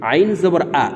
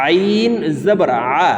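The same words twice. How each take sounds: First: আ said like a plain hamza, quick and light; wrong ayn. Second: Long-drawn আইন from mid-throat, then throaty আ; correct throaty ayn. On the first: Teacher shows learners' common mistake, আ pronounced as hamza. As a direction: say the আইন in আইন জবর আ as a plain glottal vowel. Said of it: "আইনের উচ্চারণ হামজার উচ্চারণ করে থাকি". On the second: Teacher models the ayn in আইন জবর আ, slow mid-throat articulation. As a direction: pronounce আ from the middle of the throat, slowly. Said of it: "হলকের মধ্যখান থেকে আইন হরফের উচ্চারণ করব". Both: Shown as a demonstration.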